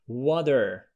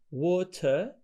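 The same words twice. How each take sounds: First: The middle t is a soft d sound. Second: The middle t is a clear t sound. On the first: "in American, you, they say water" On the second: "we have water in British"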